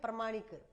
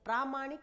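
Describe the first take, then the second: First: The first vowel is short. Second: The first vowel is long. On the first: The speaker calls it wrong. "कई लोग आम बोलचाल में हम बोल देते हैं प्रमाणिक" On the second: The speaker calls it right. "प्रामाणिक होता है, ... यहां दीर्घ हो जाता है"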